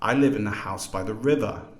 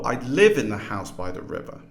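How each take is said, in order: First: The main stress is on river. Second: The main stress is on live.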